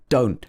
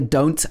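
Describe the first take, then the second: First: The final T sound is dropped. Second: The final T sound is clearly pronounced. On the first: The speaker calls it right. "I'm missing out some of the T's" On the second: The speaker calls it wrong. "I don't say don't"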